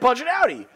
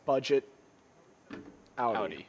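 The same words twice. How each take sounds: First: The phrase is said quickly. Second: The phrase is said slowly. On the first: "Everybody was" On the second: "Nobody said it slowly. Nobody said it like that"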